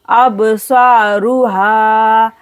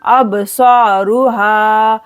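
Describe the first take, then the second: First: Saruha with sa held two counts; slow recitation. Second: Saruha, ru quick, ha drawn; slow recitation. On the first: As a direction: draw out the sa in saruha. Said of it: "दो second के लिए खींचेंगे". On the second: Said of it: "जल्दी से पढ़ेंगे रू और हा को खींचेंगे". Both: Shown as a demonstration.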